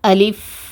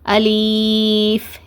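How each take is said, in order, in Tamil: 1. நடு உயிரெழுத்து குறுகிய i. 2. நடு உயிரெழுத்து நீண்ட ee-வாக நீட்டப்படுகிறது. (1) "இந்த மாதிரி தான் உச்சரிக்கணும்" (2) "லீன்னு நீட்டி ஓதுவாங்க, அந்த மாதிரி நீட்டி ஓதக்கூடாது"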